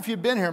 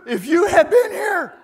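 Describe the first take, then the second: First: It is said calmly and reverently. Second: It is said in an angry, exasperated way. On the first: A respectful, pious statement of grief. The speaker calls it wrong. "Now we read this sort of like this" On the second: She is upset that he did not come. The speaker calls it right. "She's not happy, right? ... She's mad"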